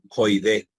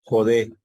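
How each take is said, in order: First: Joidé with an oi glide in the first syllable; deliberately wrong joidé pronouncing the iota; wrong pronunciation shown. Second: Said in the usual way. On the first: Shown as a demonstration. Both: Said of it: "no se pronuncia allí joidé".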